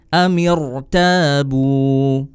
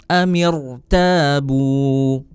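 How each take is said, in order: No difference in how they are said.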